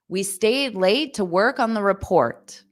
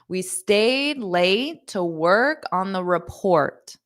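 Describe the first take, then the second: First: The sentence is spoken quickly. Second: The sentence is spoken slowly.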